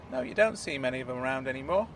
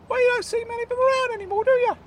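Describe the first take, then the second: First: Said in the usual way. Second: High, fast squeaky protest; high-pitched indignant character voice; high Claude voice. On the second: Acted. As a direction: argue the point in a high piping voice. Claude defending Wimpy.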